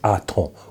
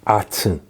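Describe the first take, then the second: First: The second vowel sounds like 'oh'. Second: The second vowel sounds like 'eh'. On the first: The speaker calls it right. "The correct pronunciation is Aton" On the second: The speaker calls it wrong. "Aten does not exist"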